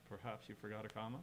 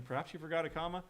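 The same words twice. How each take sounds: First: Softer, lower, condescending British-style remark; rude British reading. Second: Higher, rising friendly question; kindly American reading. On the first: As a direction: say it low and quiet, like a rude British put-down. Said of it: "if you say that with a British accent". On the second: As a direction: ask it kindly, pitch lifting to the end. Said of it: "as being from an American". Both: Shown as a demonstration.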